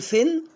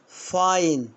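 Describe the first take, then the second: First: The vowel is a short 'i' sound. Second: The vowel is the long 'eye' sound. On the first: The speaker calls it wrong. "هنا ها اقول فين ولا ها فاين؟" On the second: The speaker calls it right. "برافو يعني غرامة"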